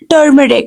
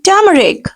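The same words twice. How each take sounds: First: The r after the first vowel is sounded. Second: The r after the first vowel is silent. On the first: The speaker calls it wrong. "this is not turmeric" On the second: The speaker calls it right. "R will be silent"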